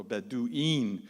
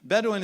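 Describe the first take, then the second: First: "Bedouin" said Bedu-een; plural ending "een". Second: Said in the usual way. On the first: Shown as a demonstration. Explaining the plural of Badu, "Bedouin" as Bedu-een. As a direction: end "Bedouin" on a long, clear "een". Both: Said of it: "Een is the plural".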